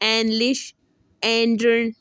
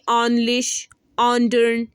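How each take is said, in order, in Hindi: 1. पहले स्वर 'eh' जैसे सुनाई देते हैं। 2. पहले स्वर एक खुले 'ah' जैसे सुनाई देते हैं। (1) "इसको नीचे की तरफ लेके जाएंगे" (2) "अगर इसको ऊपर की तरफ लेकर जाके पढ़े"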